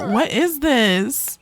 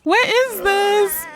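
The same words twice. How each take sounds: First: Said in the usual way. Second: Much higher, drawn-out squeal; shocked squeal. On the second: Real, not acted. Player freaking out at Nathaniel's transformation, high drawn-out squeal. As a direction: squeal it slowly in disbelief.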